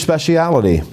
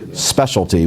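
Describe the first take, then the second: First: The longer form with an extra middle syllable. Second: The shorter form without the extra syllable. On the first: This is how the translator's language puts it. The speaker calls it wrong. "not in English in the way you're pronouncing it" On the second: This is the usual English form. The speaker calls it right. "Specialty, we would say"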